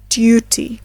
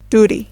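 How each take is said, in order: First: A y sound comes before the u. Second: The u sounds like oo, without a y. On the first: "while in British English, it is pronounced as duty" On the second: "In American English, the second word is pronounced as duty"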